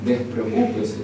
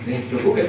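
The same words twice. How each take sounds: First: Said in the usual way. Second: Despreocúpese said again almost in a whisper, much lower and softer; quiet murmured Despreocúpese; hushed repeat. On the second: Shown as a demonstration. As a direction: drop to a near whisper on Despreocúpese. Pastor repeats reassurance twice.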